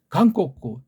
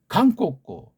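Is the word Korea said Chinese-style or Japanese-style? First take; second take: Japanese-style; Japanese-style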